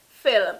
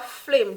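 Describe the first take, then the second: First: It is said with a standard English pronunciation. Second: It is said with a Jamaican Patois pronunciation. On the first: "the proper pronunciation of the word is film" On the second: "Jamaican patois"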